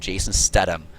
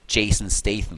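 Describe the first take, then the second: First: The middle consonant is a hard T sound. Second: The middle consonant is a soft th sound. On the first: It sounds tougher. "in German, most people pronounced him Jason Statham" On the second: It sounds less tough. "how you should pronounce him correctly"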